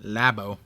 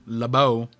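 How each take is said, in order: First: "Labo" as LAB-oh, full first vowel; plain first-syllable Labo. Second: "Labo" as luh-BOH, weight on the end; Laboon-style Labo. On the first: Reader checks the name on the page, "Labo" as LAB-oh. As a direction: say "Labo" as LAB-oh, low and falling. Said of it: "Labo. There we go". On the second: Reader jokes it is short for Laboon, "Labo" as luh-BOH. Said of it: "Short for Laboon". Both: Shown as a demonstration.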